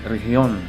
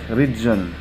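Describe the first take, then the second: First: The g is said like an h. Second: The g is said like an English j. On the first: The speaker calls it right. "if you are going to uh, pronounce it in Spanish, it, sh- it should be región" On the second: The speaker calls it wrong. "it looks like region"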